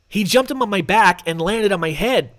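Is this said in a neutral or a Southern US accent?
neutral. It is said without a Southern US accent.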